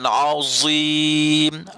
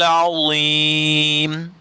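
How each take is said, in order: First: The consonant is a buzzing z sound. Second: The consonant is a heavy dh sound. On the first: The speaker calls it wrong. "bukan azim" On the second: The speaker calls it right. "sebutannya tidak ada bunyi z tu"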